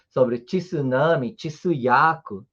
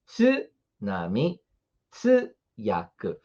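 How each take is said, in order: First: "tsunami" and "tsuyaku" said as "tchisunami", "tchisuyaku"; wrong pronunciation. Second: "tsunami" and "tsuyaku" said slowly with a single clean "tsu"; one crisp "tsu" and nothing before it; correct pronunciation. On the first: Teacher showing students the common wrong way. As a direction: add a "tchi" sound before the "tsu". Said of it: "Não é assim que se fala". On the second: Teacher to students, modelling the right sound. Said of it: "A gente fala apenas". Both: Shown as a demonstration.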